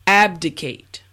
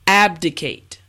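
Both takes have the same delivery.

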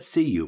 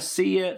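First: The second word is a full 'you'. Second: The second word is reduced to 'ya'. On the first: It is a more formal, British-sounding goodbye. "see you is more formal, more British English" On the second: It is a casual, American-sounding goodbye. "See ya, yeah, is a little bit American"

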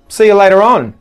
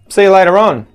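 No difference in how they are said.

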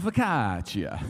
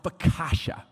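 First: The word is pronounced the Italian way. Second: The word is pronounced the American way. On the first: The speaker calls it right. "us Italianos, we call it focaccia" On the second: The speaker calls it wrong. "that's what Americans say"

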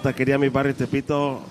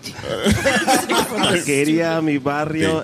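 First: The name is said at a normal pace. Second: The name is said slowly.

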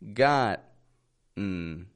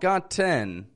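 First: The T is made as a glottal stop. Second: The T is fully released as a T. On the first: The speaker calls it right. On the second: The speaker calls it wrong.

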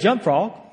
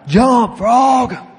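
First: It is said at normal volume. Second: It is shouted loudly.

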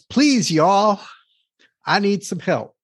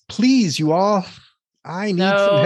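First: It is read in a Southern American accent. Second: It is read in a plain, non-Southern accent. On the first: "You got to say y'all" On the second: "That didn't sound very Southern"

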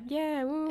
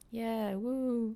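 First: It is said through a smile. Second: It is said without a smile in the voice.

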